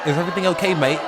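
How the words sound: It is said in a put-on British accent.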